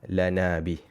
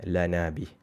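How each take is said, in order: No difference in how they are said.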